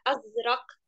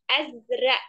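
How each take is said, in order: First: It is said in Standard Arabic, ending in q. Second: It is said in Egyptian Arabic, final q dropped. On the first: "kalau di bahasa Fusha namanya Azrak" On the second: "Kalau di bahasa Amiyah Mesir"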